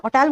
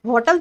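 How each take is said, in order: First: होटल said with a silent h, like otel; होटल spoken as otel, h silent; correct pronunciation. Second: होटल said with a sounded h, as hotel; होटल with a clear h, the way not to say it; wrong pronunciation. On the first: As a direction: drop the h and open होटल on the o. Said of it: "होटल बोलते हैं". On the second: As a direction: voice the h at the start of होटल. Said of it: "होटल तो नहीं बोलते ना". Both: Shown as a demonstration.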